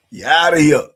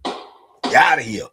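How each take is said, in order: First: You outta here, shouted like an umpire; loud mock ejection. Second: You outta here, said slowly; a slow playful kiss-off; mock banishing. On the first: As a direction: throw them out loud and playful. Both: Banishing a blabbing viewer.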